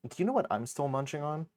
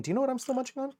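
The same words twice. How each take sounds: First: Said in the usual way. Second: Much higher, squeaky cartoon voice. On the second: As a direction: squeak the question playfully. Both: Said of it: "repeat in other voice".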